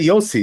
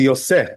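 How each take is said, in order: First: The name ends with an 'ee' vowel. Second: The name ends with an 'eh' vowel. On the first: This is how one community says it. The speaker calls it wrong. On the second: This follows the written vowel marks. The speaker calls it right. "The proper way to pronounce it is really Yosef"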